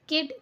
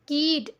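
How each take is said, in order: First: The vowel is short and clipped. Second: The vowel is long and drawn out. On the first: The speaker calls it right. "ऐसे पढ़ रहे हैं" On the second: The speaker calls it wrong. "ऐसे नहीं पढ़ रहे हैं"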